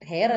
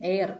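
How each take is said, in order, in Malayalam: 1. ഈ വാക്ക് കേൾക്കാവുന്ന h ശബ്ദത്തോടെയാണ് തുടങ്ങുന്നത്. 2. ഈ വാക്ക് h ശബ്ദമില്ലാതെയാണ് തുടങ്ങുന്നത്. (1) "ഹെയർ അല്ല" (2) "എച്ച് സൈലന്റ്"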